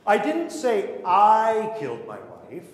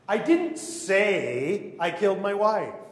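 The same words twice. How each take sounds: First: The first word "I" is stressed. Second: The word "say" is stressed.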